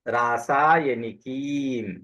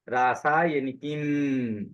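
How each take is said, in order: First: The final 'ee' vowel is held long. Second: The final m is held long. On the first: The speaker calls it right. "तो म लंबा नहीं है, की लंबा है।" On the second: The speaker calls it wrong. "तुमने किम में से म को लंबा किया। ... तुमने कैसा कहा?"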